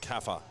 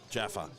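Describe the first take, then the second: First: The name begins with a K sound. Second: The name begins with a J sound. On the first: The speaker calls it wrong. "please remind me if I say it wrong again" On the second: The speaker calls it right. "pronounced Jaffa, like the chocolates"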